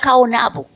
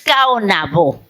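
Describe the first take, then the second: First: The stress falls before the final syllable. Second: The stress falls sharply on the final syllable. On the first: This is how it sounds in Spanish. The speaker calls it wrong. "así suena en español" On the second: This is how the original speakers said it. The speaker calls it right. "en acento agudo y explosivo al final"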